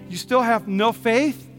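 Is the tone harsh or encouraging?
encouraging. It sounds gentle and encouraging.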